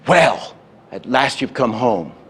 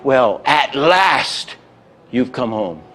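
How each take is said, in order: First: The main stress falls on home. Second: The main stress falls on last.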